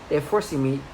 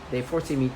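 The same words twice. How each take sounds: The two takes are said the same way.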